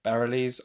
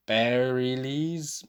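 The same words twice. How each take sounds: First: "Bareilles?" tried again quickly as "puh-RELL-eez", rising like a question; second guess at "Bareilles", quick, with a questioning rise; questioning retry. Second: "Bareilles" drawn out slowly, sounded out carefully as "air-ee-leez"; "Bareilles" said slowly, unsure, as air-ee-leez; unsure name. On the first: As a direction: correct yourself with a doubtful "Bareilles?" sounding puh-rell-eez. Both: Shown as a demonstration. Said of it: "we all know I'm bad at pronouncing names".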